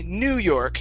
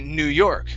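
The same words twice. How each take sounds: First: The stress falls on the word New. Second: The stress falls on the word York. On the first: The speaker calls it wrong. "we don't say New York. ... we don't want to stress new" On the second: The speaker calls it right. "We stress the second word"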